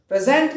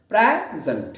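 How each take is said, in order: First: present said pre-ZENT, high and loud on the end; wrong stress, second syllable. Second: present with a long open PRAE and weak falling zunt; stress on first syllable. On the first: Teacher rejecting the verb form, present stressed on second syllable. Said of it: "present नहीं". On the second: Teacher pointing to the first portion, present stressed at the start. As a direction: stretch the first part of present. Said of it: "इसका जो पहला portion है". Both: Shown as a demonstration.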